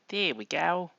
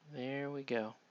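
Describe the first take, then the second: First: It is said in a put-on Australian accent. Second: It is said in the speaker's normal accent.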